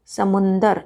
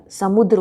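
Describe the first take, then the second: First: समुंदर with a nasal n before द; colloquial समुंदर. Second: समुद्र with a द्र cluster, no n; correct समुद्र. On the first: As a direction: say समुंदर the everyday way. (समुंदर, बोलचाल वाला उच्चारण) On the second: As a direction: join द and र in समुद्र. (समुद्र, द्र संयुक्त) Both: Shown as a demonstration. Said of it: "समुद्र होता है".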